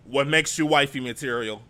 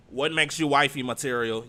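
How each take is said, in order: First: Louder mocking repeat of the host's question; pointed loud repeat. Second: Louder, pointed wifey material question; pointed loud repeat. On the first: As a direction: repeat it back with emphasis. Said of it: "You hear the". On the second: Retold or imitated. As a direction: lean on it to make the point. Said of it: "She said".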